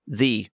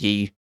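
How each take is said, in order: First: The word begins with a th sound. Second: The word begins with a y sound. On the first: The speaker calls it right. "It's pronounced the" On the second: The speaker calls it wrong. "wasn't even pronounced ye"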